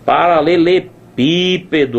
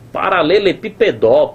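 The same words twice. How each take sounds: First: The stress falls on the third-to-last syllable. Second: The stress falls on the final syllable. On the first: The speaker calls it right. "Tá na antepenúltima sílaba" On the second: The speaker calls it wrong. "a sílaba tônica ou tá aqui na última sílaba, mas aí na última sílaba não rola"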